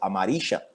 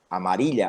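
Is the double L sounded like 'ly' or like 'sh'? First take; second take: sh; ly. First: The double L sounds like 'sh'. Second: The double L sounds like 'ly'. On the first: "eu aprendi com C H, amarixa" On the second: "lhá aqui no Paraguai"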